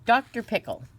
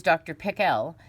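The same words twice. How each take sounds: First: Said in the usual way. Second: Doctor Pickle with Pickle stressed on its second syllable, pick-ELL; Doctor Pickle, accent landing on the ELL of Pickle. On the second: Shown as a demonstration. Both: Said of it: "with the accent on the second syllable".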